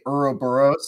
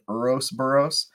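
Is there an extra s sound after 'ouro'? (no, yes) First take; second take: no; yes. First: The word has no extra s sound inside. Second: The word has an extra s sound inside. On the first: The speaker calls it right. "I was supposed to say Ouroboros" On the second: The speaker calls it wrong. "I accidentally said Ourosboros"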